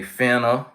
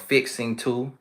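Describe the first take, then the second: First: It is said as one short reduced word. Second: It is said as two full separate words. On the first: "We say finna" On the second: "instead of fixing to"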